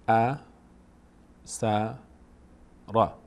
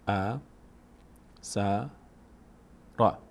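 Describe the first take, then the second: Both takes have the same delivery.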